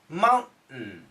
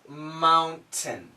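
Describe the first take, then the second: First: The T sound is stopped in the throat. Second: The T sound is fully released. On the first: "the typical American pronunciation is mountain, mountain. We stop the sound" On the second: "the word is mountain"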